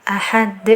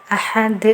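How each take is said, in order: Both takes have the same delivery.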